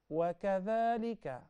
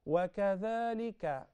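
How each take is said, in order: No difference in how they are said.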